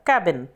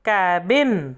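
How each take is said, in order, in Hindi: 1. पहला स्वर छोटा है। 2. पहला स्वर लंबा है। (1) "ए की साउंड शॉर्ट रहेगी" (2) "ए की लॉन्ग साउंड होगी"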